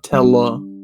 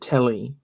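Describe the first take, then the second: First: The word ends in an 'uh' sound. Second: The word ends in an 'ee' sound. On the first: The speaker calls it wrong. "not Tella" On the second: The speaker calls it right. "You pronounce it Telly"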